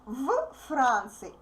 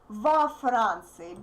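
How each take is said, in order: First: The v runs straight into the f sound. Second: A vowel separates the v and f sounds. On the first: The speaker calls it wrong. "it will be really confusing" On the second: The speaker calls it right. "o appears for uh, convenience"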